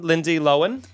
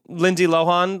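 First: "Lohan" said as LO-en; corrected pronunciation. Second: "Lohan" said as LO-hahn; usual pronunciation. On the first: Asking the co-host about the new name, "Lohan" as LO-en. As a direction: drop the h in "Lohan", rhyming with Owen. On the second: Asking the co-host about the old name, "Lohan" as LO-hahn. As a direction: say "Lohan" with a full h and open ah. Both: Shown as a demonstration. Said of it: "will you call".

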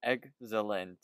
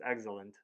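First: "Excellent" sounded out as "egg ... zalent". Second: "Excellent" quickly joined as "eg-zə-lənt"; said fast. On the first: Friend tries co-host's tip, slow "Excellent" with a Z. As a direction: split "Excellent" in two, z starting the second part. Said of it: "say try Zalent with a Z". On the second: Co-host tells friend say it fast, quick "Excellent". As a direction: run "Excellent" together in one quick word. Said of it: "now say it fast". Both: Shown as a demonstration.

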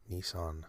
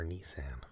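First: "Nissan" said NEE-sahn; "Nissan" ending like "on"; alternate pronunciation. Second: "Nissan" said nee-SAN; "Nissan" ending like "ran"; alternate pronunciation. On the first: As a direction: say "Nissan" with a broad ah in the second syllable. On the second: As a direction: say "Nissan" with the a of "cat" in the second syllable. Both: Shown as a demonstration. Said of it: "depending on how you wanna say it".

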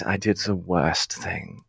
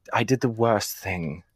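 First: Slow, weighted I did the worst thing; drawn-out confession. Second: Said in the usual way. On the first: Shown as a demonstration. [name] repeats his confession to the cats, slowly and weighted. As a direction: lean on each word, slowly.

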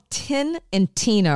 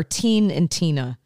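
First: Tin said with a short i, as in the metal; short clipped vowel in "Tin"; Tin pronunciation. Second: Put-on Teen said with a long ee; long ee vowel in "Teen", matching Tina; Teen pronunciation. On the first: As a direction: say "Tin" to rhyme with pin. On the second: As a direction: say "Teen" like the start of teenager. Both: Shown as a demonstration. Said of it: "or Teen and Tina".

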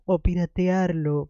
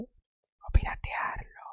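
First: Said in the usual way. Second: Slow, hushed whisper, drawn out; conspiratorial whisper. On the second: Pretend. Book host slyly suggesting piracy to listeners, conspiratorial whisper. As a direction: whisper it like a secret. Mischievous aside, hushed as if secret.

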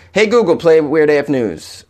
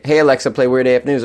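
First: Slow, deliberately spaced words to a smart speaker; slow device command. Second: Said in the usual way. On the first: Shown as a demonstration. Host showing listeners how to command a smart speaker, slow and deliberate. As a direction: spell it out clearly for the machine. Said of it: "tell these devices to". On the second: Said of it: "Or you can say".

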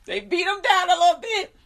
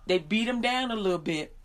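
First: High, loud, laugh-choked voice; amused squeal through real laughter. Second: Said in the usual way. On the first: Real, not acted. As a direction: repeat it while cracking up.

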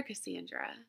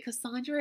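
First: "Cassandra" with a flat short "a", kuh-SAN-druh; alternative pronunciation. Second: "Cassandra" with an open "ah" middle, kuh-SAHN-druh; first pronunciation option. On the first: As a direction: say "Cassandra" to rhyme the middle with "and". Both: Shown as a demonstration. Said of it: "I say so many of these names different every week".

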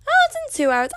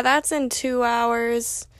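First: High, squeaky sudden alarm; mock panic. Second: Said in the usual way. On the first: Mock panic at practice being soon.

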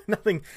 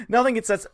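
First: Laughing. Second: Said in the usual way. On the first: Real, not acted. Laughing mid-word while streaming.

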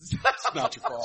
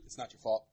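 First: Breathy whisper of the famous line; whispered repeat. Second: Low, soft, lightly imitated line from the film; low Robin Williams line. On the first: Retold or imitated. A whispered take on the Goodwill Hunting line for the other hosts. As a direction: whisper it to the friends. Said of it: "the Robin Williams". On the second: A low, soft imitation of the Goodwill Hunting therapist. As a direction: murmur it low like the therapist scene. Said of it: "[name] is the Robin Williams".

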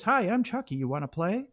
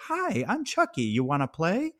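First: High, sing-song talking-doll greeting. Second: High, sing-song doll voice; creepy doll voice. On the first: Podcaster recalling the doll line, lightly pitched up. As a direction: chirp it like a toy. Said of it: "you hear that voice". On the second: Podcaster mimicking Chucky doll greeting, high sing-song. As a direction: chirp the toy line sweetly. Quoting the doll's line. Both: Retold or imitated.

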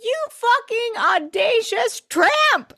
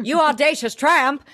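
First: Very high, drawn-out outraged insult; mock scream. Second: High, playful outraged insult; milder mock scream. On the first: Host screaming what Nate should have said, slow mock scream. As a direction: stretch it into a high-pitched theatrical screech. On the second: Host repeating the favourite insult, lighter mock outrage. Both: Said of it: "That's what I wanted him to scream".

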